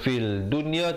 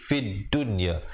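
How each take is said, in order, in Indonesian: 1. Ada bunyi L sebelum dunya. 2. Tidak ada bunyi L; D ganda muncul sebagai gantinya. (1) "Jangan baca fil dunya" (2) "tetapi fid dunya"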